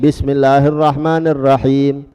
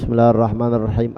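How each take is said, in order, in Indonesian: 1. Frasa ini dibaca keras dan jelas. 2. Frasa ini dibaca pelan dan lirih. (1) "Pas bismillah kita kencengi" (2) "bismillah di dalam Fatihah itu dipelani"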